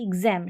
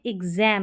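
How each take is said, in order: First: एग्जाम as "ig-zem", second vowel cut short; short A, wrong. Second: एग्जाम as "ig-zaem", second vowel drawn long; long stressed A. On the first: Teacher showing what not to say, short-vowel एग्जाम. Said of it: "short sound नहीं आ रहा". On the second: Teacher showing where stress goes, long-vowel एग्जाम. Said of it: "long sound आ रहा है इस ए का". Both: Shown as a demonstration.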